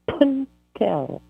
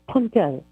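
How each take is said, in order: First: The word is said slowly and deliberately. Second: The word is said at normal speed.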